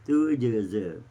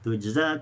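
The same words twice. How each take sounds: First: The final vowel is tilted toward e. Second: The final vowel is an open a.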